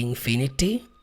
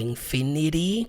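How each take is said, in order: First: The t is a clear t sound. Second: The t sounds like a quick r.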